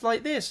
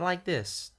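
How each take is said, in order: First: The voice is raised to a higher pitch. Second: The voice is lower, in the accented character voice. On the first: "My voice higher is like this" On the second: "not like this"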